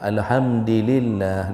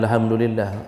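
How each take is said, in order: First: The word is said with one vowel changed. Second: The word is said with its standard vowels. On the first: The speaker calls it wrong. "dia baca ... cuma karena berbeda baris saja" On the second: The speaker calls it right. "dia bukan baca alhamdulillah"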